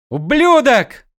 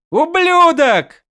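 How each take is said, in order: First: High furious shout. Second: Very high, slow anguished scream; drawn-out scream. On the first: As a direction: yell it out after him. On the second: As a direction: stretch the yell out in grief. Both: A narrator's reading. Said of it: "заорал Адалин".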